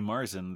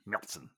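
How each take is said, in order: First: The word is said the American way. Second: The word is said the German way. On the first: The speaker calls it wrong. "if you say Marzen, they probably will look at you like you have three heads" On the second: The speaker calls it right. "we understand that it's pronounced Märzen"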